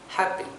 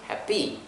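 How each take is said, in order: First: The stress is on the first syllable. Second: The stress is on the second syllable. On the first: The speaker calls it right. "it's supposed to be happy. So that means the first, the stress is actually in the first syllable" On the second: The speaker calls it wrong. "we never actually uh, pronounce it as happy"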